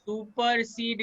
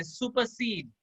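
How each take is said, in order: First: supersede dragged out slowly; too slow. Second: Said in the usual way. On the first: Shown as a demonstration. Teacher showing a student how not to say it, too slowly. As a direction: stretch each syllable of supersede too long. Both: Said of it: "इतना आस्ते नहीं बोलना है".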